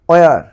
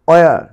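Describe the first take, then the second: The two takes are said the same way.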